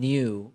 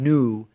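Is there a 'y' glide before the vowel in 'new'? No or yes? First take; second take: yes; no. First: A 'y' glide comes before the vowel, 'nyoo'. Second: No 'y' glide comes before the vowel, 'noo'. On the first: "me saying new" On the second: "rather than new"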